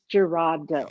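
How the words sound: The name is said with English sounds. "if you're gonna say it like in English"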